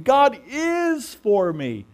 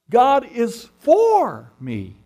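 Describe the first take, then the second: First: The word 'is' is stressed. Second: The word 'for' is stressed. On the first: It is certain that God is on my side. "There's no doubt about it. I'm absolutely certain" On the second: God actively supports me. "He actually is interested and active in my life"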